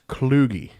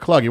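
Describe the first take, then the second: First: The first syllable has a long 'oo' vowel. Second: The first syllable has a short 'u' vowel. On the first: It is the slang term found online. "the way they were uh, pronouncing it?" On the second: It is the speaker's own nickname. "instead of Cluggy"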